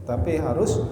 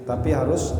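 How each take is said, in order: The two takes are said the same way.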